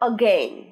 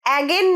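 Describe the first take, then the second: First: The first vowel is a short 'o' sound. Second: The first vowel is an open 'a' sound. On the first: The speaker calls it right. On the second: The speaker calls it wrong.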